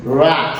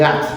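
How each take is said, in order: First: Rat drawn out in English style; corrected pronunciation. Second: Rat said short and quick, Creole-style; wrong pronunciation. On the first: Teacher models it for students, rat drawn out English-style. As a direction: say rat with a longer English r and vowel. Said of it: "On dit rat". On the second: Teacher shows students the mistake, rat said short, Creole-style. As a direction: say rat briefly with a Creole sound. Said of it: "Pas dit rat". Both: Shown as a demonstration.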